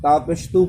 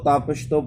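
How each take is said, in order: First: The vowel is a full, pure 'oo' sound. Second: The vowel is a lax 'oh' sound. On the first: The speaker calls it right. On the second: The speaker calls it wrong.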